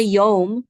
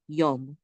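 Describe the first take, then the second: First: Yom with a drawn-out o; long vowel in Yom. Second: Yom with a brief, clipped o; short vowel in Yom. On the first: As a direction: stretch the vowel of Yom, the wrong way shown. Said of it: "Don't make it long". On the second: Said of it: "Just short". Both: Shown as a demonstration.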